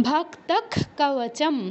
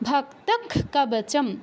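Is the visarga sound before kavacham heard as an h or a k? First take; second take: k; k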